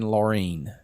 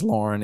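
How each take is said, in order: First: The name is said as Laureen. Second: The name is said as Lauren. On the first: The speaker calls it right. "it should have been Laureen" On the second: The speaker calls it wrong. "I pronounced her name as Lauren"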